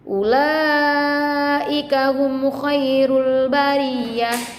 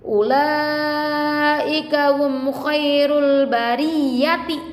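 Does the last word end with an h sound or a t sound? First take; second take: h sound; t sound. First: The last word ends with a soft h sound. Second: The last word ends with a full t sound. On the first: The reading stops at this word. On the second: The reading continues past this word.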